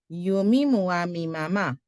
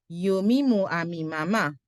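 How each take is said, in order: Both takes have the same delivery.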